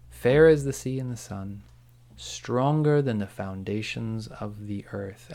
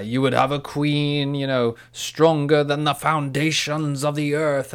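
First: Slow, measured delivery of a grand quote; lightly voiced Sauron quote. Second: Slow, loud, grand queenly proclamation; Galadriel from the film. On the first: Podcaster quoting Sauron tempting Galadriel, slow and measured. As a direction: draw out the line, lightly voicing a tempter. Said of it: "And he was like". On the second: Retold or imitated. Podcaster quoting the queen tempted by the ring, slow, loud proclamation. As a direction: imitate a tempted queen, swelling and drawn out. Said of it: "And she says".

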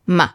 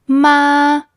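First: Ma short, light and unstressed; "ma" clipped short and gentle; neutral tone on ma. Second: Ma held high and level; "ma" long, high and even; high flat tone. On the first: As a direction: tap "ma" briefly and let it go. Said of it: "with the neutral tone". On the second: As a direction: sustain "ma" on one high pitch. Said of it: "high and flat tone". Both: Shown as a demonstration.

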